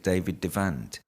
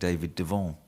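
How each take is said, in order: First: Devant is said with an English pronunciation. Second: Devant is said with a French pronunciation. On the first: This is how the magician himself would have said it. The speaker calls it right. "I think they pronounce it David Devant" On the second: This comes from the speaker's habit of speaking French. The speaker calls it wrong. "because I I'm good at French that I can't stop myself saying"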